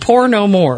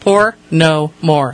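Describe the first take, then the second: First: The three words run together without breaks. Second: Each of the three words is said separately. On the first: The speaker calls it wrong. "Be careful the way you say that" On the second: The speaker calls it right. "There you go. Words"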